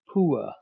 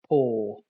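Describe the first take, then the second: First: The vowel glides from oo toward uh. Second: The vowel is one long steady sound. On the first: This is the older, less common pronunciation. "It starts with an oo and ends with an uh" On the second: This is how most people say it today. "with a long monophthong"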